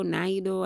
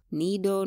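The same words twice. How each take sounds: First: Nido said "nye-doh", with an eye sound; "Nido" as "nye-doh", trying the English way; Nido, English-style. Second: Nido said "nee-doh", with an ee sound; "Nido" as "nee-doh", first guess at the name; Nido, Swahili-style. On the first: Reviewer retries the milk brand for viewers, "Nido" as "nye-doh". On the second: Reviewer tries her own way of saying the milk brand, "Nido" as "nee-doh". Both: Shown as a demonstration. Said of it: "I don't know how do you call it".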